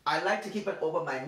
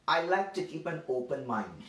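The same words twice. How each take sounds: First: Said in the usual way. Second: Mock quote. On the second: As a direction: say it like a smug know-nothing, half-teasing. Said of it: "so they would say things like this".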